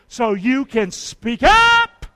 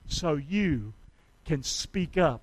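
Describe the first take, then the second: First: It is said at a louder volume. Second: It is said at a normal volume.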